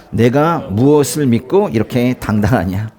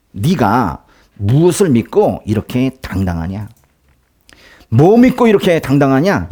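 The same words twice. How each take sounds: First: Said in the usual way. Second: Mocking taunt. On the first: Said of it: "랍사게가 그들에게 말했습니다". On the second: Envoy taunting King Hezekiah, mocking and scornful. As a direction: sneer at the king as if he were nothing. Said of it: "랍사게가 히스기야를 조롱합니다".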